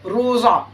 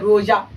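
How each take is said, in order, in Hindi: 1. बीच की आवाज़ मोटा, भारी z है। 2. बीच की आवाज़ j है। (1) "थोड़ा मोटा करके" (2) "तब जीम का आवाज निकलता"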